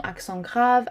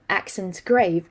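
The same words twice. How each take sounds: First: "accent grave" in French, nasal ending on accent, "grave" with an ah; French pronunciation. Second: "accent grave" said as English words, "grave" rhyming with wave; English pronunciation. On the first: Teacher listing the five French accents, "accent grave" in French pronunciation. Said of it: "It is actually a French word". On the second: Teacher reading the title as English, "accent grave" in English pronunciation. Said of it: "not just an English title". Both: Shown as a demonstration.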